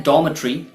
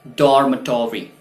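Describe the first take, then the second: First: "डॉर्मेटरी" as "DAW-muh-tree", no r; UK pronunciation. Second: "डॉर्मेटरी" as "DOR-muh-tor-ee"; sounded r and full "-tory" in "डॉर्मेटरी"; US pronunciation. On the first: Teacher contrasting with US English, UK pronunciation. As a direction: silent first r, short "-tree" in "डॉर्मेटरी". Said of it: "लेकिन US pronunciation". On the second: Teacher showing learners the US version, American pronunciation. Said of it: "US pronunciation इसका होता है". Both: Shown as a demonstration.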